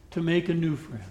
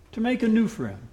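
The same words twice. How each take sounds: First: Said in the usual way. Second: "new" lifted higher and set apart; preacher urging his listeners, "new" stressed. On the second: Shown as a demonstration. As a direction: lean on the word "new".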